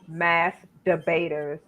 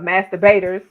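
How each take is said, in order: First: The name is said slowly, words kept apart. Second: The name is said quickly, running together. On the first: The speaker calls it right. "I should have slowed slowed it down" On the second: The speaker calls it wrong. "I said it too fast"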